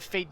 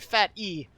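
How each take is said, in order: First: The name is said as one syllable. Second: The name is said as two syllables. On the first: The speaker calls it wrong. "or sorry" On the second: The speaker calls it right. "his name is Fat E"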